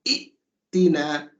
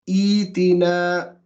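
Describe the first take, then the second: First: A sharp glottal stop follows the first vowel. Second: The first vowel is stretched into a long ee. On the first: The speaker calls it wrong. "That's too sharp. The Arabs don't like that" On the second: The speaker calls it right. "this mad would be a Yamad"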